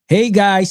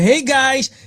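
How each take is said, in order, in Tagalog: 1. Walang emosyon ang pagbasa sa pagbati. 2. Masigla ang pagbasa sa pagbati, parang nakangiti.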